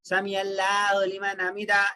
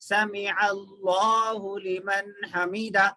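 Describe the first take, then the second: First: The L in Allahu is light and thin. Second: The L in Allahu is heavy and thick. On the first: The speaker calls it wrong. "ये गलत है" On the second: The speaker calls it right. "लाम को मोटा पढ़ना है"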